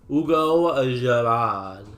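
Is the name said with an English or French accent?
French. The name is said with a French accent.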